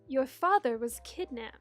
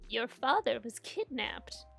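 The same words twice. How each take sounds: First: It is said in a different character voice. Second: It is said in Nana's grandmother voice.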